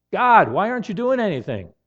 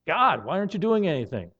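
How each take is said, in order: First: "God" pushed higher and louder in exasperation; rising frustration at God's silence; a week of unanswered prayer, complaining louder to God; frustrated plea. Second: Said in the usual way. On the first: Retold or imitated.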